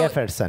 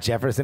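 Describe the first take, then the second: First: The name begins with a breathy H sound. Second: The name begins with an English J sound. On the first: The speaker calls it right. "even though there is a J right there" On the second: The speaker calls it wrong. "It's not Jefferson"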